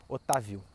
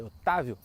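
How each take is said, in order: First: "Otávio" dito como se não tivesse acento: o-ta-VI-o; tônica no VI. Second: "Otávio" com acento forte no TÁ: o-TÁ-vio; tônica no TÁ. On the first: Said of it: "aí vira uma paroxítona". ("Otávio" virando "Otavíu", com força no VI) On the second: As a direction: marcar o TÁ de "Otávio". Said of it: "a sílaba tônica é o tá". ("Otávio" pronunciado certo, com a tônica na penúltima sílaba, TÁ) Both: Shown as a demonstration.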